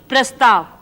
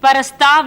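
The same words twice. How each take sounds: First: It begins with a cluster without a vowel: pra-stav. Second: It begins with an extra vowel: para-stav. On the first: The speaker calls it right. "P R A S" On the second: The speaker calls it wrong. "नहीं"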